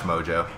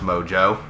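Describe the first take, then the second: First: The stress is on the first syllable. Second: The stress is on the second syllable. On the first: "I say Watch Mojo" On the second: "You accidented the Joe"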